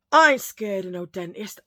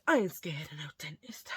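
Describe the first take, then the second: First: Bold boast. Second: Whispered boast. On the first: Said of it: "repeats the boast three ways". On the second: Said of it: "repeats the boast as a whisper". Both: Acted.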